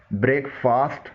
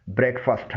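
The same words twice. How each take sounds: First: بریک فاسٹ said "brake-faast"; long a in the فاسٹ of بریک فاسٹ; wrong breakfast pronunciation. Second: بریک فاسٹ ending in short "fust"; correct breakfast pronunciation. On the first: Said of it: "نہیں ہے بلکہ". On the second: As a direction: weaken the second syllable of بریک فاسٹ. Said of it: "بلکہ". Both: Shown as a demonstration.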